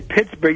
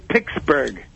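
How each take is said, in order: First: The first syllable sounds like 'pits'. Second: The first syllable sounds like 'picks'. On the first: The speaker calls it wrong. "you don't say Pittsburgh" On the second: The speaker calls it right. "With the CKS"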